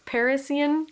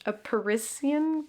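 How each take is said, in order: First: "Parisian" as PAIR-iss-ee-un, higher; unsure high-pitched stab at "Parisian"; trying a pronunciation. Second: Slow "Parisian" with a hissed s; trying a pronunciation. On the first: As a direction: say "Parisian" starting like pair, with an s in the middle. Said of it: "I don't know". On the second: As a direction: say "Parisian" slowly as puh-RISS-ee-un. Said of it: "I'd say it in French". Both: Shown as a demonstration.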